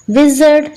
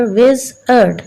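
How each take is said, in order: First: Said in the usual way. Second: "विजर्ड" slowly in two beats, विज़, then अर्ड; split into syllables. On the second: Shown as a demonstration. ("विजर्ड" को धीरे, तोड़कर: विज़ - अर्ड) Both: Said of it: "टू syllables".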